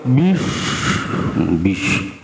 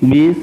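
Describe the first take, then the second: First: The s sound is heavy and thick. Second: The s sound is very thin and light. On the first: "terlalu medok" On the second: "terlalu tipis"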